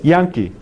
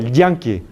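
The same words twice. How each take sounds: First: The first sound is soft, without tongue contact. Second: The first sound is hard, with tongue contact. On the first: The speaker calls it right. "fricativa. No hay contacto" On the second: The speaker calls it wrong. "No es como yankee"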